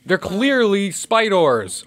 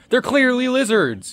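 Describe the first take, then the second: First: Said in the usual way. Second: Mock deadpan. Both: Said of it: "I almost said lizards".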